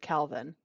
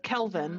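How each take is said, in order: First: The name is said as Calvin. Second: The name is said as Kelvin. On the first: This is how the parents pronounce it. "but they pronounce it Calvin" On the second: This is how the spelling reads. "It's Kelvin"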